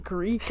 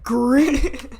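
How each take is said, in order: First: Said in the usual way. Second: Louder, higher mock disbelief; imitating a baffled stranger; incredulous echo.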